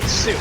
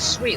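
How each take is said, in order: First: The word sounds like 'suit', with an oo vowel. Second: The word rhymes with 'candy sweet', a long ee. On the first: "I would call it suit" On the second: "you pronounce it sweet, like the word sweet, like candy sweet"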